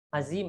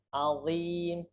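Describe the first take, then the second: First: The z sound is a plain buzzing z. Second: The z sound has the tongue between the teeth. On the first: The speaker calls it wrong. "Azim pakai zai. Nah, itu tidak boleh" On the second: The speaker calls it right. "Pakai vo. Jadi lidah kita sedikit keluarkan"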